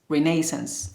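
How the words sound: It is said with a British pronunciation. "British English pronounced Renaissance"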